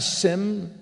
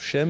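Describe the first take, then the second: First: The name begins with a plain s sound. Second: The name begins with an sh sound. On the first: The speaker calls it wrong. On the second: The speaker calls it right.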